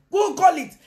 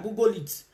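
First: High, loud insistent shout. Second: Said in the usual way. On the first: Real, not acted. To viewers doubting, shouted insistent order.

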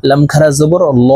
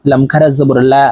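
First: Heavy, rounded "ল" with an o-like vowel; thick lam. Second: Light "লা" with an open a; thin lam. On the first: Teacher spells out the heavy lam, "ল" said thick. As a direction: say "ল" full and dark, as in Allah after a fatha. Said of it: "এই লামকে ল অর্থাৎ মোটা করে পড়িতে হয়". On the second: Teacher spells out the lam after kasra, "লা" said thin. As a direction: say "লা" thin and clear, without rounding. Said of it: "এই লামকে লা অর্থাৎ পাতলাভাবে পড়তে হবে". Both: Shown as a demonstration.

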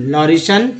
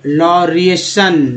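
First: Said in the usual way. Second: लॉरिएशन drawn out in parts; careful stretched लॉरिएशन; slow word demo. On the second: Shown as a demonstration. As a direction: sound out लॉरिएशन very slowly. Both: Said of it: "इस तरह से आप पढ़ना सीख".

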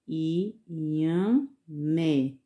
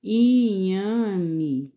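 First: Inhamé drawn out slowly, stress on the last syllable mé. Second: Said in the usual way. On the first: Shown as a demonstration. Teacher to pupils, sounding out the vegetable slowly. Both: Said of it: "Bem devagarzinho".

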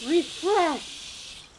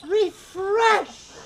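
First: Said in the usual way. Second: Louder. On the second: Acted. Repeated word, escalating.

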